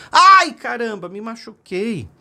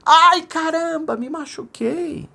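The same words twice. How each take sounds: First: Put-on a child yelping after a fall; hurt little boy's cry, high then fading. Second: Very high, slow echo of "Ai, caramba, me machuquei"; distant echo. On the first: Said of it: "seu filhinho caiu e gritou". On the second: Acted. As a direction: call it back from far off, drawn out. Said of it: "escutou lá de fundo assim".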